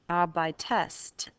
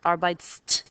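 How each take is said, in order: First: An extra vowel is said before the final st. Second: No vowel is said before the final st. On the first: The speaker calls it right. "Adding a linking E merely helps you pronounce it" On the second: The speaker calls it wrong. "So these are wrong"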